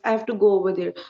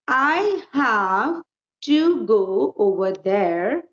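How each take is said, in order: First: It is said in a flat, unvaried tone. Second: It is said with lively, varied intonation. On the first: The speaker calls it wrong. "So don't read like this" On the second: The speaker calls it right. "How will you be reading?"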